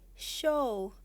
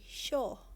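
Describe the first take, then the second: First: The vowel glides as a diphthong. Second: The vowel stays a single short sound. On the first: "I say show" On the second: "Korean will say show"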